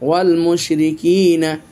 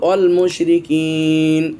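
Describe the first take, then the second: First: The last word ends with a final vowel. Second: The last word ends on the consonant. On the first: The recitation continues without stopping. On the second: The reciter stops here.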